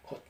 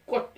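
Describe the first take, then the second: First: It starts with a soft, plain k sound. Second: It starts with a hard, tense kk sound. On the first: This is the older form of the word. "된 발음이 없었고 꽃 이런 말을 곧 그랬던 거예요. 그러니까 훨씬 부드럽잖아요" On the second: This is the later, modern form of the word. "강해져가지고 꽃 이렇게 변한 거예요"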